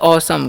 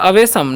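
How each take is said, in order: First: It is said in two syllables, aw-sum. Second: It is said in three syllables, a-ve-sham. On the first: The speaker calls it right. "इसे हम पढ़ते हैं औसम" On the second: The speaker calls it wrong. "नहीं इसे अवेशम नहीं पढ़ना है"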